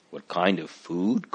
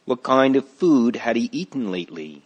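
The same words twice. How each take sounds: First: Softer, rising echo of the question; surprised. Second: Said in the usual way. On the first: Acted. Christiana echoing the doctor, mildly surprised. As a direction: catch the question back in mild surprise. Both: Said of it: "Christiana asked in surprise".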